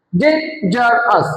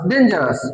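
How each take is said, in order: First: ডেঞ্জারাস slowly as DAN, GER, OUS; three spaced beats on ডেঞ্জারাস; broken into syllables. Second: Said in the usual way. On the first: Shown as a demonstration. Teacher asks class to count, ডেঞ্জারাস in three slow syllables. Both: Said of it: "তিনবারে".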